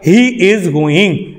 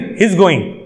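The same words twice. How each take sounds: First: He and is are said as two separate words. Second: He and is are joined into one syllable. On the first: The speaker calls it wrong. "ऐसे नहीं" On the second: The speaker calls it right. "एक साथ बोल देना"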